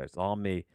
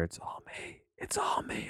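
First: Said in the usual way. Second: Unvoiced-soft whisper right into the mic. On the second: Real, not acted. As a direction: whisper it softly and secretively, close to the mic. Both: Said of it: "I'll whisper into the mic really softly there".

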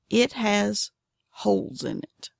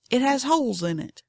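First: Measured teaser with a pause before "holes"; deliberate repeat. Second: Said in the usual way. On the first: Real, not acted. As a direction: draw the words out for emphasis. Teaser repeated slowly for emphasis.

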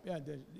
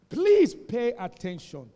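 First: Softer, dropped low and calm; quiet repeat. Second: Loud, slow, drawn-out command to listen; loud call for attention. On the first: Pastor repeating his call to the congregation, quietly. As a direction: say it again under your breath. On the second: Pastor waking a drowsy congregation, slow and loud. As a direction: boom it out so the sleepers wake. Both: Real, not acted. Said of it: "Pay, what did I say?".

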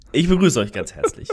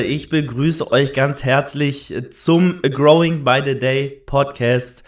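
First: Laughing welcome. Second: Slow, loud show-host welcome; grand announcer intro. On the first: Real, not acted. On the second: Acted. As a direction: announce it like a big show opening. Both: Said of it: "ich muss noch mal neu machen".

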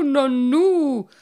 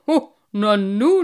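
First: Nanu falling, higher and loud; astonished nanu dropping away; surprised. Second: Put-on loud, slow astonished old carp, nanu rising; old carp bumps into them, nanu with a loud rising call; surprised. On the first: Old carp stares at them, nanu high and falling. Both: A narrator's reading. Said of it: "rief Cyprinius erstaunt".

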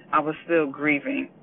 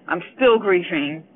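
First: Said in the usual way. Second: Louder, pushing through real grief; "still" pressed louder as the grief breaks through. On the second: Real, not acted. Mother telling listeners she still grieves, louder and emotional. Correcting tense, grief rising.

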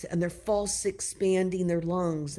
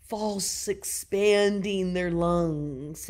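First: Said in the usual way. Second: False expanding their lungs, each word slowed and leaned on; slow emphatic stress. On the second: Shown as a demonstration.

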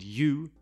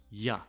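First: "you" with full "oo"; clearly pronounced "you"; long vowel on "you"; strong form. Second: "ya" as short "yuh"; weak form. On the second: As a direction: reduce "you" to "ya". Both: Shown as a demonstration. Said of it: "you becomes ya".

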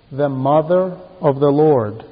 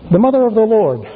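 First: Said in the usual way. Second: The mother of the Lord repeated higher and louder, mother stressed; emphatic repeat. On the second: Shown as a demonstration. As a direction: hit mother hard on the repeat.

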